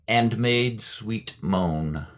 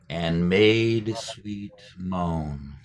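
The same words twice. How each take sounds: First: Slow, drawn-out reading of "And made sweet moan"; lingering poetic demo. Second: Very slow, stretched "And made sweet moan"; slow the line right down; slower still. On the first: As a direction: savour each word of "And made sweet moan" slowly. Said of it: "so say". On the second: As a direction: draw out "And made sweet moan" even more. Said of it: "Now say it a little bit slower". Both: Shown as a demonstration.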